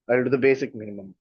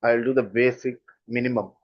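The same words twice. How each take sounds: First: Quick, offhand, bare minimum; dismissive tone. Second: Said in the usual way. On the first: Shown as a demonstration. Teacher shows the rude tone of the phrase, quick and offhand. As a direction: toss it off quickly, like you barely care. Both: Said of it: "that is not a good tone".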